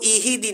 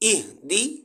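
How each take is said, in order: First: An extra vowel sits between h and d. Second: The h and d are joined with no vowel. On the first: The speaker calls it wrong. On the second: The speaker calls it right.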